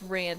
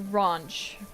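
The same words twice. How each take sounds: First: Ranch is said with an American vowel. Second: Ranch is said with a British vowel. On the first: The speaker calls it right. "that's not how you say it, it's ranch" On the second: The speaker calls it wrong. "they say ranch"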